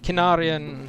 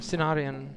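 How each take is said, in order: First: The name begins with a hard K sound. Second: The name begins with a soft S sound. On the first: "I understood, or I don't know how you pronounce it, kin" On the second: "when you said sin"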